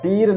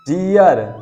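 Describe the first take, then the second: First: The vowel is a plain long ee before r. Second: The vowel glides as ee-uh before r. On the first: The speaker calls it wrong. "टीर नहीं पढ़ेंगे" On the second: The speaker calls it right. "क्योंकि आर आ गया"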